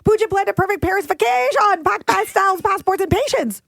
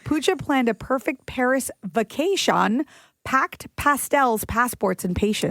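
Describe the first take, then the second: First: It is said very fast. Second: It is said slowly.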